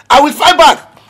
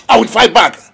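First: Louder, higher repeat of the vow, FIGHT hit hard; angry vow. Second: Said in the usual way. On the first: Acted. Father vowing revenge for his son, angry shout. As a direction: hurl the threat back louder.

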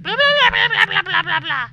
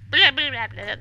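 First: Loud, high babbling that slides downward; high-pitched nonsense chatter, very loud; mock gibberish. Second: Short loud burst of babble; imitated talking noises. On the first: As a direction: imitate game gibberish with rapid loud blahs. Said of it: "they talk in gibberish here". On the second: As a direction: babble out a few loud blahs. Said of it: "That's their talking noises".

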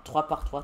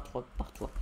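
First: Said in the usual way. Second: Breathy whispered echo of trois par trois; quiet whispered aside; whispered repeat. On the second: Shown as a demonstration. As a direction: whisper it back to yourself. Repeating the mining count.

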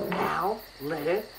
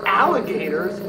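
First: "Alligators" in separate beats, al, li, ga, tors; softer teacherly breakdown of "Alligators"; syllable by syllable. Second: Said in the usual way. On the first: Shown as a demonstration. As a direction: sound out "Alligators" with pauses between syllables.

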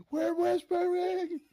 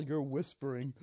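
First: High, loud, drawn-out mock yell; yelled quote. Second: Said in the usual way. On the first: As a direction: yell it absurdly, mocking a so-called whisper. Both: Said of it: "You can't just yell".

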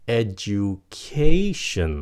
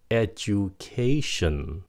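First: Slow "Education", punching the syllable before the ending; stress before "shin". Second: Said in the usual way. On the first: Shown as a demonstration. Teacher shows where stress falls, "Education" punched on KAY. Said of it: "các bạn phải nhấn âm cho nó". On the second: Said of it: "T I O N là âm shin".

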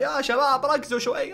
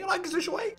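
First: Said in the usual way. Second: High pleading. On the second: Shown as a demonstration.

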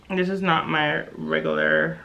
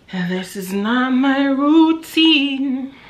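First: Said in the usual way. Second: High and slow, stretching routine; slow high drawn-out. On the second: Shown as a demonstration.

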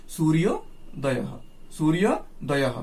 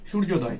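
First: সূর্যোদয়ঃ drawn out as "suriyo-dayah", with an audible final h; Sanskrit pronunciation. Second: সূর্যোদয় in Bengali sounds, ending open on the vowel glide; Bengali pronunciation. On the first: Teacher correcting students' pronunciation for Sanskrit, সূর্যোদয়ঃ with its final h sounded. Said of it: "কিন্তু সংস্কৃত উচ্চারণ হবে". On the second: Teacher showing students how Bengali says it, Bengali pronunciation of সূর্যোদয়. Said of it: "বাংলায় উচ্চারণ হবে". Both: Shown as a demonstration.

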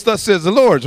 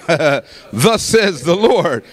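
First: Said in the usual way. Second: Very slow, drawn-out pronouncement; real prophetic declaration. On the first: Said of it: "sometimes people do those". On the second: Shown as a demonstration. Preacher presents the genuine word of God, slow declaration. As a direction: stretch each word out with weight. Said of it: "this is a, a real".

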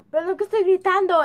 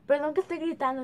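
First: Loud, fast apologetic yell; yelling across the room. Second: Said in the usual way. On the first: Real, not acted. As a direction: shout the apology over the room.

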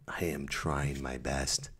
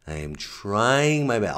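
First: "I am trying my best" softer, slow, low and resigned; soft, slow, defeated. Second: "I am trying my best" higher and slow, pleading; pleading, raised. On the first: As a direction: murmur "I am trying my best" quietly and slowly, defeated. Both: Shown as a demonstration. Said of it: "repeated in two ways".

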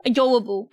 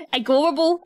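First: Said in the usual way. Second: "Adorable" with a hard g for the d, questioning; slipped pronunciation. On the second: Real, not acted. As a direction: say "Adorable" as a-GOR-able, rising. Questions own slip, then corrects.

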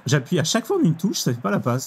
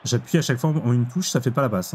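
First: J'appuie pushed higher, fois falling firmly; insistent complaint. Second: Said in the usual way. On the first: Real, not acted. Gamer insisting to viewers that the pass button fails, insistent. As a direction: insist that the button was pressed. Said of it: "J'appuie tout le temps". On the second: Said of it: "Je vous le dis direct".

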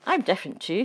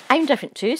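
First: Said in the usual way. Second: Eager. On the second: Acted. Hedgehog chimes in eagerly.

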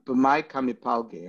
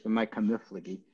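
First: "B'mai kamipalgi" with a hard p, pal-gi; correct Aramaic pronunciation. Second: "B'mai kamiflagi" with f, run into fla-gi; yeshivish pronunciation. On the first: Teacher shows students the textbook form, "kamipalgi" in correct Aramaic. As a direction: say "kamipalgi" carefully, full PAL with a p. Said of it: "speaking Hebrew correct Aramaic". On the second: Teacher shows how yeshiva learners say it, "kamiflagi" in yeshivish. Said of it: "as they say in yeshivish". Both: Shown as a demonstration.

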